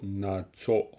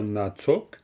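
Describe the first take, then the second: First: The word ends on a vowel, no k sound. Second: The word ends with an audible k sound. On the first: "en général, on dira plutôt natso" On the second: "on peut dire natsok"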